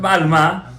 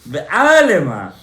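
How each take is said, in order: First: The word is said with three syllables. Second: The word is said with four syllables. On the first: It refers to a girl. The speaker calls it wrong. "not be'alma. Alma is a girl" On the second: It refers to the world. The speaker calls it right. "In the world, in be'alema"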